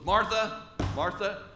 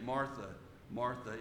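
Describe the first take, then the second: First: It is said sternly, like scolding someone. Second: It is said gently, with warm compassion.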